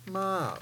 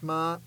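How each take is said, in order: First: The pitch drops from high to low. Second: The pitch stays high. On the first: "the third tone is ma, or the drop tone" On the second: "The fourth tone, the high tone, is ma"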